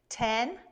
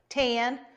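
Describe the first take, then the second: First: It is said in a plain, normal voice. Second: It is said in a put-on cowboy voice.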